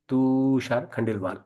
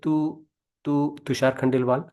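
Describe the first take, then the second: First: The first sound is stretched out long. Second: The first syllable is bounced, repeated several times. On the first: "prolongation से बोलना है" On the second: "bouncing में बोलेंगे"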